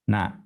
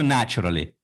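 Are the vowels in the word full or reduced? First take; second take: reduced; full. First: The vowels are reduced toward schwa. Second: The vowels are full, with lips moving. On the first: The speaker calls it right. "Я говорю naturally" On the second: The speaker calls it wrong. "не говорю naturally"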